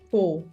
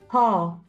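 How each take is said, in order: First: The vowel is a closed o sound. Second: The vowel is a wide open o sound. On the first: The speaker calls it wrong. "não fale pô" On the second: The speaker calls it right. "Ó bem aberto"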